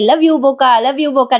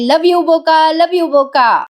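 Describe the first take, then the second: First: Said in the usual way. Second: थोडी वर चढवलेली नक्कल केलेली घोषणा; निवडणुकीच्या घोषणेसारखं हलकंसं ओरडून म्हणा. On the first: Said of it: "Kavya म्हणते". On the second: Retold or imitated. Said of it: "मोठ्याने ओरडते". (काव्या आईसोबत पार्थसाठी घोषणा देत, हलकंसं ओरडून)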